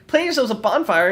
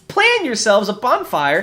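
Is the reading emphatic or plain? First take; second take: plain; emphatic. First: It is read plainly, without dramatic emphasis. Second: It is read with heavy, dramatic emphasis.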